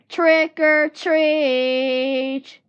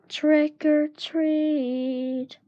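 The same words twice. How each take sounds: First: It is said a little louder. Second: It is said very softly.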